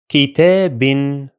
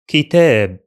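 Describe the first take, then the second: First: The word ends with an n sound. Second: The word ends without an n sound. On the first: The word is in the middle of the reading. "In case of continuation" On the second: The word is at the end of the reading. "In case of pausing"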